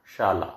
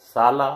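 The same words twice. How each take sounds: First: शाला with a clear sh, shaala; शाला said carefully with sh; correct shala. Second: साला said with a plain s, sala; साला with a dental s instead of sh; wrong sala. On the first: Teacher giving the correct form, sh sound. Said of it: "एक शाला school का सूचक है". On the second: Teacher showing the wrong word, plain s. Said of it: "दूसरा शाला पत्नी का, भाई का सूचक है". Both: Shown as a demonstration.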